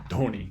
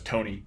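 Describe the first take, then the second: First: The name begins with a voiced breathy stop. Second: The name begins with a plain voiceless stop. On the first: This is the original pronunciation. The speaker calls it right. "That was a voiced aspirated stop to begin this one" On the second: This is how an English ear hears it. The speaker calls it wrong. "I would always hear that as Tony"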